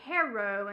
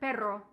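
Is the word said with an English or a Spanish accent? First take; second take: English; Spanish. First: It is said with an English accent. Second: It is said with a Spanish accent.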